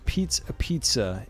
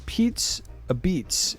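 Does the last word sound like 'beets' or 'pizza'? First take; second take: pizza; beets. First: The last word sounds like 'a pizza', with final vowel. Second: The last word sounds like 'a beets', no final vowel.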